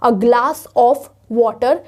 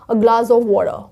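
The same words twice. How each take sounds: First: The word 'of' is said fully and clearly. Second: The word 'of' is weak and reduced. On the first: The speaker calls it wrong. "नहीं बोलते हैं" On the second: The speaker calls it right. "हम इसको ऐसे बोलते हैं"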